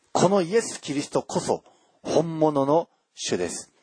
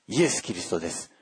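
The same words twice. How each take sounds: First: イエス・キリスト lifted high and stressed, then falling; emphatic proclamation. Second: Said in the usual way. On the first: Real, not acted. Preacher to his congregation, stressing イエス・キリスト as the true lord.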